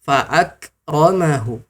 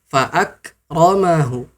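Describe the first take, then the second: The two takes are said the same way.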